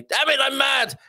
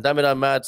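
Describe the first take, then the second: First: "Damn it, I'm mad!" blurted high in mock anger; mock mad outburst. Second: Said in the usual way. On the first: Host reading a comedian's joke, mock angry. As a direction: play the cross comic, much higher. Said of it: "Dimitri Martin quote of the day". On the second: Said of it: "spelt backwards".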